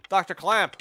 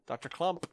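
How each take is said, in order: First: Clamp called out loud with a clear a vowel; loud self-correction. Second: Clump read with an uh vowel, a questioning rise; tentatively sounding out Clump with a short uh; misreading the name. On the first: Correcting his misread of the scientist's name, loud. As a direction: fix the name, Clamp with a flat a, emphatic. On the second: Reading the name off the screen, wrong Clump. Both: Shown as a demonstration.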